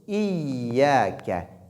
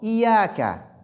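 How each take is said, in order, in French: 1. Le son y est doublé et tenu. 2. Le son y est court et simple. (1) "mais plutôt iyyaka" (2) "et non iyaka"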